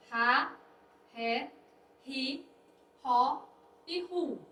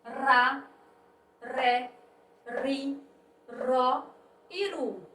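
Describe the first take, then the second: First: Ra, ré, ri, ró, ru with an aspirated H-like R; strong R. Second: Ra, ré, ri, ró, ru with the R made on the tongue tip; soft R. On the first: Teacher reading syllables ra, ré, ri, ró, ru, strong R. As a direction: read ra, ré, ri, ró, ru one by one as ha, hé, hi, hó, hu. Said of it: "com mais intensidade". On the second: Teacher reading syllables ra, ré, ri, ró, ru, soft R. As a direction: read ra, ré, ri, ró, ru separately, tongue-tip R instead of H. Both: Shown as a demonstration.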